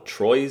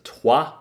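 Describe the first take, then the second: First: The name is read as English spelling. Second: The name is said the French way. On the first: This is a guess made without looking it up. The speaker calls it wrong. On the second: This is how the name should be pronounced. The speaker calls it right.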